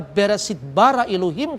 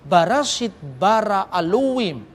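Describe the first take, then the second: First: It is read in the Jewish Hebrew pronunciation. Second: It is read in the Samaritan Hebrew dialect.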